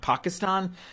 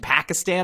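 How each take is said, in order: First: The first syllable sounds like 'pah'. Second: The first syllable sounds like 'pack'. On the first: It is the correct pronunciation. The speaker calls it right. "and not Pakistan" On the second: It makes the pun work. The speaker calls it wrong. "the pun relies on me saying Pakistan"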